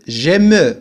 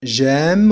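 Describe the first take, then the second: First: "j'aime" said "je-me" with the e sounded; mock mistake, add a vowel after the m of "j'aime"; wrong pronunciation. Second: "J'aime" as one syllable, final e silent; correct pronunciation. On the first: Teacher showing students the wrong form, final e pronounced. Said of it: "ولا أقول j'aime". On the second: Teacher showing students the right form with a silent e. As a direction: end "J'aime" on the m. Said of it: "J'aime ولا أقول". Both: Shown as a demonstration.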